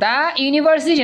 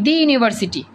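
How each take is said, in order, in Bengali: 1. 'The' একটি ছোট 'uh' স্বরে বলা হয়। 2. 'The' একটি লম্বা 'ee' স্বরে বলা হয়। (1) "দা না" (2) "দি ইউনিভার্সিটি। Very good"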